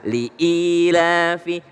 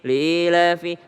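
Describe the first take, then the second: First: A clear glottal catch separates the syllables. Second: The syllables run together without a catch. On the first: The speaker calls it right. "Padahal li ilafi" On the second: The speaker calls it wrong. "seringkali kita mendengar orang baca"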